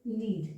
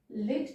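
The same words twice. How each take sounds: First: लीड with a long, held ee; long vowel. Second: लिड with a short i; short vowel. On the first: Teacher demonstrating long vowels to learners, long ee in लीड. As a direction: draw out the ee in लीड. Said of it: "ये एक long sound vowel है". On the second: Teacher contrasting vowel lengths for learners, short i in लिड. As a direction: keep the i in लिड brief. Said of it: "लिड एक short sound vowel है". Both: Shown as a demonstration.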